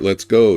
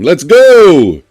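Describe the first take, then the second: First: It is said in a plain, low-energy way. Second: It is said with lively, high energy.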